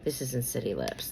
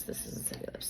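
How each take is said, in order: First: Said in the usual way. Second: "This isn't City Lips." whispered, much softer; under her breath. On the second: Real, not acted. Vlogger finds the wrong lip gloss and whispers to herself. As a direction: mutter it to yourself in a whisper.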